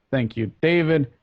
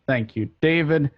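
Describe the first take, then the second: No difference in how they are said.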